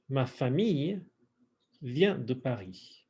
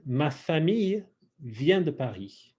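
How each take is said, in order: First: Phrase in pieces. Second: Said in the usual way. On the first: Shown as a demonstration. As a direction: split the phrase for repetition. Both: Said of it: "let's do some pronunciation work".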